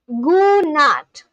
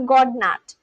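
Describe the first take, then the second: First: The d sound is silent. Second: The d sound is pronounced. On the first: The speaker calls it right. "here on Google it says that it's pronounced as Gunat" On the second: The speaker calls it wrong. "I thought it is pronounced as God nat"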